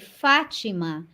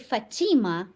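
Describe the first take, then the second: First: The name is said with a Portuguese pronunciation. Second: The name is said with an American pronunciation. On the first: "in Portuguese you say Fatima" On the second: "here in United States you guys say Fatima"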